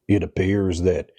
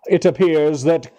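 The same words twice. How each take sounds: First: It is said in a Southern American accent. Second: It is said in a British accent.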